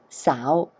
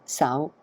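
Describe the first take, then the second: First: "sow" drawn out and flicked up at the end; loud, long "sow" with an upward flick; stretched mid-rising tone. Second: "sow" cut short without the full rise; short "sow", tone left unfinished; lazy, unstretched tone. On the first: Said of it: "flick it up because it's mid-rising". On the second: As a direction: say "sow" lazily, not stretched out. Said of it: "get lazy and I don't stretch it out". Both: Shown as a demonstration.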